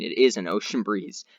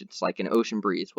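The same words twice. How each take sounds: First: "is" leaned on, amused correction; "is" stressed with a laugh. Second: Said in the usual way. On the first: Shown as a demonstration. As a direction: insist that it really is one, hitting "is". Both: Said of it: "Well, I mean".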